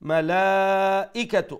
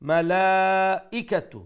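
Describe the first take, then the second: Both takes have the same delivery.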